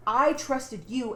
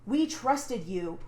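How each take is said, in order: First: "I" stressed to turn the blame round; slow retort, "I" punched against the other side. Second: "trusted" drawn out in slow reproach; slow, retold accusation leaning on "We trusted you". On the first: Retold or imitated. She answers the friends' accusation, "I" stressed in retort. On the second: Friends accusing her of releasing videos, slow reproach.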